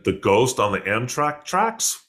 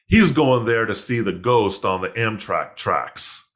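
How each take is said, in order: First: "tracks" rising into a question; questioning echo. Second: "ghost on the Amtrak tracks" told slowly, falling at the end; slow reveal, landing "tracks" as a statement. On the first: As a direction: slowly repeat it as a puzzled question, lifting "tracks". Echoes the reveal in disbelief. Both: Retold or imitated.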